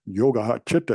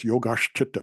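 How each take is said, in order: First: The words are joined with no 'sh' sound. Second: A 'sh' sound links the two words. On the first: The speaker calls it wrong. "It isn't" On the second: The speaker calls it right. "it's yogash chitta because of that beautiful blending"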